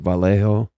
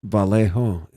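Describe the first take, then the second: The two takes are said the same way.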